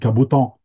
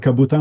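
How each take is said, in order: First: The final vowel is strongly nasalized and opened. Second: The final vowel has standard, light nasalization. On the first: This is how locals say it. "on dit cabotant" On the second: This is not how locals say it. "on ne dit pas cabotin"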